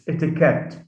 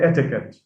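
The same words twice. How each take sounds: First: The stress falls on the final syllable. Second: The stress falls before the final syllable. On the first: The speaker calls it right. "It's etiquette. ... it carries the stress itself" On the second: The speaker calls it wrong. "we often hear people say etiquette"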